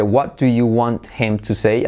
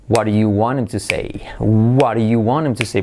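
First: Slower "What do you want him to say" with t and h sounded; careful textbook question; separate words. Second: "What do you want him" as "waru-yu wanem"; linked and reduced. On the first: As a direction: pronounce "want him" as two full words. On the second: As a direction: run the words together, dropping the h of "him". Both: Shown as a demonstration. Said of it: "Fijaos la diferencia entre".

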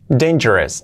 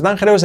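First: "Dangerous" as DEIN-je-res; English j, weak ending in "Dangerous"; correct pronunciation. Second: "dangerous" as dan-HE-rous; Spanish j and full "ous" in "dangerous"; wrong pronunciation. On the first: Teacher models for learners: "Dangerous" as DEIN-je-res. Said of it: "luego es dangerous". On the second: Teacher warns learners off this: "dangerous" as dan-HE-rous. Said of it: "no es dangerous". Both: Shown as a demonstration.

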